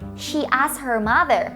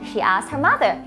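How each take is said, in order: First: The sentence is said at a normal pace. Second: The sentence is said at a fast pace.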